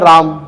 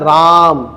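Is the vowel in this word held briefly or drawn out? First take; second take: brief; drawn out. First: The vowel is held for a normal length. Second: The vowel is stretched out very long.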